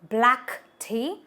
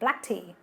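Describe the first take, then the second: First: The two words are said separately and distinctly. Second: The first word blends smoothly into the second. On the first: The speaker calls it wrong. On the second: The speaker calls it right.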